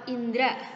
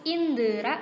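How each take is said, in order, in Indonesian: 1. Kata ini tidak memiliki vokal di antara d dan r. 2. Kata ini memiliki vokal di antara d dan r. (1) "harusnya indra tanpa E" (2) "indera atau indra"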